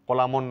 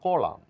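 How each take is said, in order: First: The final n is pronounced. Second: The final n is silent. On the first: The speaker calls it wrong. "কলামন নয়" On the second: The speaker calls it right. "বলবো কলাম"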